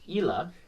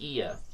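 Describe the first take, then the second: First: The name is said the Italian way. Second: The name is said the Spanish way. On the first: "If he's Italian, then it's Ila" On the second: "If he's Spanish, it's Ia"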